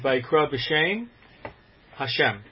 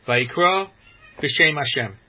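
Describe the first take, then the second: First: A small pause comes before the final word. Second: The final words run on without a pause. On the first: The speaker calls it right. "putting a small break between shame and Hashem" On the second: The speaker calls it wrong. "as opposed to saying"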